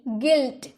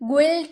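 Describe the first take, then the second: First: An ih vowel follows the g. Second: An oo sound follows the g. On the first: The speaker calls it right. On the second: The speaker calls it wrong.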